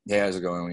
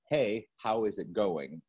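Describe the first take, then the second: First: The words are mumbled and run together. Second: Each word is clearly and separately enunciated. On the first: The speaker calls it wrong. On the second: The speaker calls it right.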